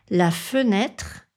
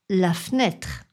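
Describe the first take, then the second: First: The e after the f is pronounced. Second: The e after the f is dropped.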